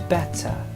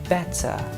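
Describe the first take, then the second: First: The T is said the formal British way. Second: The same.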